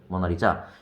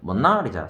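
First: The stress is on the fourth syllable. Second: The stress is on the second syllable. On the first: "사음절은" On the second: "이음절은"

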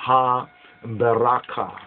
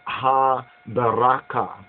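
Both takes have the same delivery.

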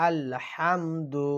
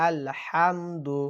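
Both takes have the same delivery.

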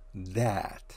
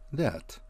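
First: The vowel is full and clearly pronounced. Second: The vowel is weak and reduced. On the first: It points to a specific thing. "его нужно произносить в полную силу" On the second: It joins a clause to the main sentence. "произносится в редуцированной форме"

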